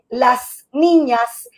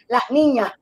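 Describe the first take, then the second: First: The final s of las is clearly pronounced. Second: The final s of las is aspirated. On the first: "en vez de decir" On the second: "tendemos a aspirar esa ese final y decimos"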